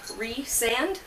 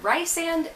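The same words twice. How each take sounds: First: The name does not sound like Lysander. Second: The name sounds like the name Lysander. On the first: The speaker calls it right. "specifically says you pronounce it like Rhysand" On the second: The speaker calls it wrong. "I've been saying it like Rhysand"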